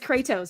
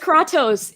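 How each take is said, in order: First: The name is pronounced the North American way. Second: The name is pronounced the Greek way. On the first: "In North America, it's Kratos" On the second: "In Greek, it's Kratos"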